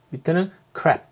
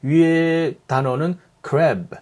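First: "crap" ending on a crisp unvoiced p; "crap" 끝의 p를 분명하게; final p. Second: "crab" ending on a voiced b, slow and drawn out; "crab" 끝의 b를 살려서; final b. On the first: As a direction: clip off "crap" with a sharp p. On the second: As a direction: land on the b at the end of "crab". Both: Shown as a demonstration. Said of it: "word ending이라고 하는 부분인데".

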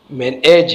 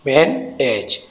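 First: Said in the usual way. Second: "मैन एज" as two separate beats; syllable by syllable. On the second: Shown as a demonstration. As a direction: pause between "मैन" and "एज". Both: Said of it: "इसमें दो syllable है".

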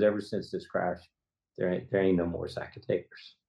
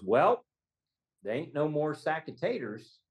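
First: Low, subdued quote of a grieving father; understated sorrow, pitched down; retold, close to tears. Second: Higher-pitched, lightly voiced quote of a client; a hint of a folksy witness; retold client's answer. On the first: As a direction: let a touch of sadness lower the voice. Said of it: "I cry every time". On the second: Quoting client's first answer.

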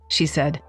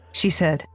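Both takes have the same delivery.

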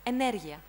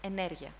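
First: "energia" said loudly with extra emphasis; "energia" pushed hard for emphasis; over-emphasized word. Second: "energia" with the stress on the E, unforced; "energia" in an easy, falling model pronunciation; correct stress. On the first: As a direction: punch the word "energia", louder. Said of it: "I was trying to emphasize the word". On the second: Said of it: "the correct stress is on E". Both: Shown as a demonstration.

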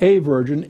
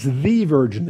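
First: A virgin, the word a stressed as the mistaken reading; wrong article. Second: The virgin, the word the stressed as the correct reading; right article. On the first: Teacher shows the King James wording, stressing a. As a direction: say a virgin, leaning on a to mark the error. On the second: Teacher corrects the King James, stressing the. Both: Shown as a demonstration. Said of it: "It's a definite article there".

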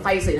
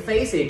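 First: "faces" with both syllables even; missing stress. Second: "faces" stressed on the first syllable, FAY-siz; word stress. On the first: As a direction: say "faces" without leaning on FA-. (đọc "faces" không nhấn trọng âm) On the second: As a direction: lean on FA- in "faces". (đọc "faces" nhấn âm đầu) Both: Shown as a demonstration. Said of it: "trọng âm cho thầy".

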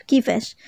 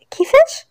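First: Understated, puzzled question at normal pitch. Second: High, whispered gasp of disbelief; stunned question. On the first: Cashier questioning a customer's claim, mildly puzzled. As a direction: ask it in mild bewilderment. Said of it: "خلاص فيها باستغراب". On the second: Daughter stunned by talk of marriage, whispered disbelief. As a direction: whisper it high, rising in shock. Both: A narrator's reading.

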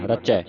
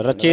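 First: ਰਚੈ ending in open "ai"; double-lanv ending. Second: ਰਚੇ ending in closed e; wrong ending. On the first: Teacher correcting the reading, ਰਚੈ with open ai ending. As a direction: end ਰਚੈ on ai, not e. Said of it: "ਰਚੈ ਤੇ ਦਲਾਵਾਂ ਲੱਗੀਆਂ". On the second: Teacher showing the misreading, ਰਚੇ with e ending. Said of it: "ਨਹੀਂ ਪੜਨਾ". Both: Shown as a demonstration.

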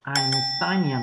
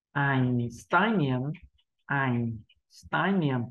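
First: "Einstein, niềm" run together more quickly; quicker reading. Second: "Einstein, niềm" slowly, syllable by syllable; slow practice reading. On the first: Teacher building speed once learners are used to it, quicker "Einstein, niềm". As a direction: join "Einstein, niềm" up into one word. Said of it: "tăng tốc độ dần dần lên". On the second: Teacher telling learners not to rush, slow "Einstein, niềm". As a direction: take "Einstein, niềm" unhurriedly, drawing out each part. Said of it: "Chúng ta hãy đọc chậm như vậy". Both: Shown as a demonstration.

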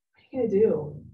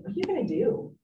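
First: Said in the usual way. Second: Curious question. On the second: Shown as a demonstration. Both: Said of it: "curiosity is the best first tool".

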